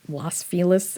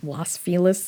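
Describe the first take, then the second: First: The name is said the way locals say it. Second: The name is said the way locals say it.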